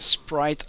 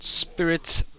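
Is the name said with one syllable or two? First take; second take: one; two. First: The name is said as one syllable. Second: The name is said as two syllables. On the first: The speaker calls it right. "It's Sprite like the drink" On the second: The speaker calls it wrong. "not Spirit like a ghost"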